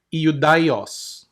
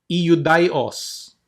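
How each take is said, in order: Both takes have the same delivery.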